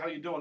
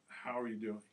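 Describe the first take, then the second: First: It is said in a light, casual tone. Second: It is said in a serious, earnest tone. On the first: It is a routine greeting. "we went from, hey, how you doing?" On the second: It asks for an honest answer. "The tone changed"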